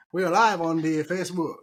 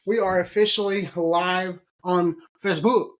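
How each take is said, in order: First: Light mock-Italian accent; hint of a hammy Italian accent. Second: Said in the usual way. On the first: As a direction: put on a playful Italian accent. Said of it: "that's my Italian accent".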